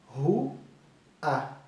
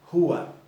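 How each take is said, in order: First: The word is split into two separate syllables. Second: The word is said whole without a break.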